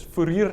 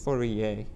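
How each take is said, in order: First: Fourier said as "foo-reer"; Afrikaans pronunciation. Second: Fourier imitated the French way, ending in -ay; softer, lower French "Fourier", final r silent; French pronunciation. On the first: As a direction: Afrikaans "Fourier" with the final r sounded. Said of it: "the proper Afrikaans pronunciation is". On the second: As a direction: carefully copy the French Fourier. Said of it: "tell me how to pronounce that thing". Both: Shown as a demonstration.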